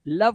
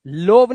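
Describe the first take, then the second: First: लव with a short uh, "luhv"; correct vowel. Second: लोव with a long o, "lohv"; लोव as if O were read as written; wrong vowel. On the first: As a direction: say लव rhyming with dove. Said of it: "लोव नहीं पढ़ना है". (लव में छोटा अ) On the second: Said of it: "नहीं पढ़ना है". (लोव में लंबा ओ) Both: Shown as a demonstration.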